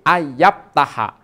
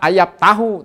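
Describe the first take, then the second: First: The final vowel is an 'a' sound. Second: The final vowel is an 'u' sound. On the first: The speaker calls it right. "tetapi ayap taha" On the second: The speaker calls it wrong. "jangan dibaca ayap tahu"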